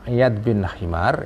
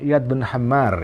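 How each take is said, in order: First: The name's first vowel is a short 'i'. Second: The name's first vowel is an open 'a'. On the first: This is the reading in the commentary on the text. "Kalau dalam syarah Ihya dibaca Himar" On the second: This is the reading in one edition of the text. "dalam edisi Ibnu Hazm ini dibaca Hammar"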